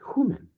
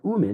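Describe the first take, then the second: First: The word starts with an h sound. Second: The word starts without an h sound. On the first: The speaker calls it right. "Here's your hard breathing mark" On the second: The speaker calls it wrong. "It's not umen"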